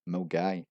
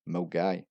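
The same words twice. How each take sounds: No difference in how they are said.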